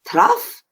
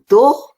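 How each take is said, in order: First: It ends with an uff sound, like puff. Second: It ends with an oh sound, like go. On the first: "No, no, no" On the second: "No, no, no"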